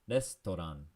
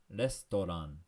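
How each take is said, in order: The two takes are said the same way.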